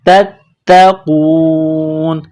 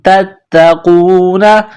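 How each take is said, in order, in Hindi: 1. शब्द का अंत सिर्फ़ n की ध्वनि पर होता है। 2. शब्द का अंत 'a' स्वर से होता है। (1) "जब यहाँ स्टॉप करेंगे तो नून को साइलेंट करेंगे" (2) "नून जबर ना"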